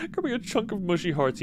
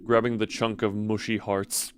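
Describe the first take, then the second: First: Higher, giggling retake of the line; laughing through it. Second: Even storyteller read, no laugh; steady narration. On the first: Real, not acted. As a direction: crack up while reading it. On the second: Acted. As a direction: keep the narrator voice level. First take, narration.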